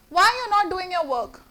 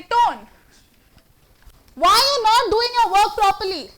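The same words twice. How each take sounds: First: Calm, even, just asking; inquiring tone. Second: Louder, higher, stern rebuke; harsh scolding tone. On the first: Teacher showing a neutral asking tone to the class. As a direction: ask gently as a real inquiry. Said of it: "That's inquiry". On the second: Teacher demonstrating a harsh tone scolding an employee. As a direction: scold a worker sharply. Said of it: "called the tone". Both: Shown as a demonstration.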